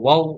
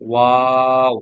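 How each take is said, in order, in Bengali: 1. স্বরধ্বনিটি ছোট করে বলা হয়। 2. স্বরধ্বনিটি টেনে দীর্ঘ করে বলা হয়। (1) "ওয়াও বলা যাবে না" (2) "চার আলিফেই বলতে, টেনেই বলতে হবে"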